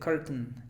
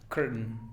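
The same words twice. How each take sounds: First: The middle t is clearly released. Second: The middle t is a glottal stop. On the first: "Si no lo quieres pronunciar glotal, puedes decir curtain" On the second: "Pero es más glotal"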